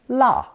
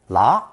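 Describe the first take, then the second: First: The pitch falls sharply through the syllable. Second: The pitch rises through the syllable. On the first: "fourth tone" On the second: "second tone"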